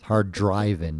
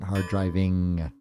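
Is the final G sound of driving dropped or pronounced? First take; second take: dropped; pronounced. First: The final G sound is dropped. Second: The final G sound is pronounced. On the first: The speaker calls it right. "Don't say the G at the end" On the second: The speaker calls it wrong. "not hard driving"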